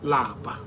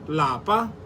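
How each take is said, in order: First: The word is said with a low tone. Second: The word is said with a high tone. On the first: It means to be tired. "Lower tone" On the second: It means home. "In higher tone"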